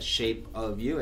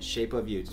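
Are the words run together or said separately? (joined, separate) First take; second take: separate; joined. First: The words are said separately, not linked. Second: The words are linked together like one word. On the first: The speaker calls it wrong. "Não é o nome da música" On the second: The speaker calls it right. "é o nome da música. Como se fosse uma palavra só"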